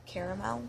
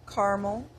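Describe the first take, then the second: First: "caramel" said "CARE-uh-mel"; fancy caramel. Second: "caramel" said "CAR-mul"; two-syllable caramel. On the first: Trying the too fancy version, "caramel" as "CARE-uh-mel". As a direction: say "caramel" in three syllables, softer. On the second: Reading a word list, "caramel" as "CAR-mul". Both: Shown as a demonstration. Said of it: "it's too fancy".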